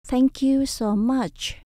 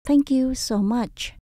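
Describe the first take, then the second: The two takes are said the same way.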